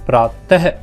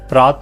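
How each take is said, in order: First: The word ends with a breathy h sound. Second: The word ends without a breathy h sound. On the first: The speaker calls it right. "प्रातः इस तरह से बोला जाएगा" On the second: The speaker calls it wrong. "इसको हम प्रात नहीं बोलेंगे"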